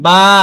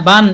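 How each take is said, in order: First: The word ends in a lengthened vowel. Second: The word ends with an n sound. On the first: The reader stops on this word. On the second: The reader continues without stopping here.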